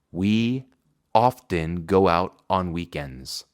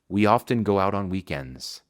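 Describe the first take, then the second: First: Often go out said slowly; slow model. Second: Said in the usual way. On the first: Shown as a demonstration. Teacher reads the example slowly. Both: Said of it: "Frecuentemente salimos".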